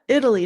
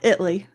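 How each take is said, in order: First: The name is said the usual way. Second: The name is said the local Texan way. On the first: This names the country in Europe. "Italy, not Itly" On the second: This names the town in Texas. "it's not called Italy, it's Itly, Texas"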